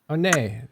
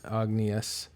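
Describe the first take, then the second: First: The G and final S are silent. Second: The G and final S are pronounced. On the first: The speaker calls it right. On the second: The speaker calls it wrong.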